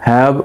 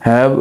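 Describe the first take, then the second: Both takes have the same delivery.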